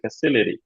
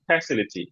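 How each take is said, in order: First: The stress is on the second syllable. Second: The stress is on the first syllable. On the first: The speaker calls it right. "সিতে stress" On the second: The speaker calls it wrong. "আমি ফ্যাটে stress দিচ্ছিলাম"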